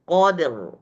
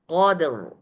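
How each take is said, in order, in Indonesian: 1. R-nya tebal. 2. R-nya tebal.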